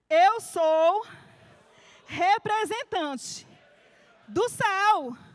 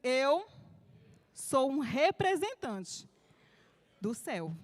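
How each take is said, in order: First: It is said with more force and energy. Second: It is said in a calm, plain voice.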